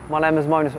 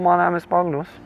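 First: It is said in his natural voice. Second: It is said in a put-on German-like accent.

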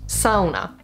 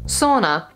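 First: It is said with a Finnish pronunciation. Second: It is said with an English pronunciation. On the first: The speaker calls it right. "correctly pronounced" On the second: The speaker calls it wrong. "you've probably heard the next word"

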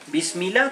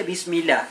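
No difference in how they are said.

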